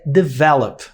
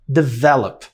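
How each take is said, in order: Both takes have the same delivery.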